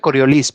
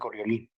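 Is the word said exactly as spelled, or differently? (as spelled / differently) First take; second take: as spelled; differently. First: The word is read exactly as it is spelled. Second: The word is said differently from its spelling. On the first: This is how the word is written. "Se escribe Coriolis" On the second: This is how the word is actually pronounced. "pero se pronuncia Coriolis"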